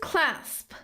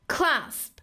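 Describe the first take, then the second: Both takes have the same delivery.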